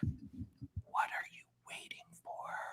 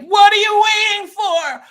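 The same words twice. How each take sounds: First: The line is whispered softly. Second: The line is yelled loudly.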